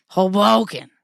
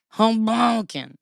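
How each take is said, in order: First: Hoboken in a loud, husky rasp. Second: Hoboken drawn out slowly, rasped; slow husky rasp. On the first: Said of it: "This is my new Hoboken Husky rasp". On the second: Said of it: "I need to make that a sound". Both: Shown as a demonstration.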